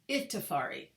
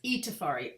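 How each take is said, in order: First: The first vowel sounds like 'eye'. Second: The first vowel sounds like 'ee'. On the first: The speaker calls it wrong. "So how do people pronounce it?" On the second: The speaker calls it right. "It's Itafari. I sound like E's"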